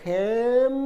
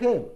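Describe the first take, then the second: First: The word ends with closed lips, an m sound. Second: The word ends on an open vowel, no m. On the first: The speaker calls it wrong. "ചുണ്ട് കൂട്ടിപ്പിടിച്ച് പറയണമെന്നില്ല" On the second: The speaker calls it right. "അങ്ങനെ പറഞ്ഞാൽ മതി"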